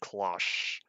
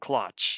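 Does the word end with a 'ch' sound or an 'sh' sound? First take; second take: sh; ch. First: It has a long 'o', ending in an 'sh' sound. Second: It rhymes with 'much', ending in a 'ch' sound. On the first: The speaker calls it right. "Watch it be cloche" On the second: The speaker calls it wrong. "I'm gonna keep saying clutch, even though that may or may not actually be true"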